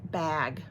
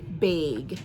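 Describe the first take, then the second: First: The word is said in a plain accent. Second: The word is said in a Wisconsin accent.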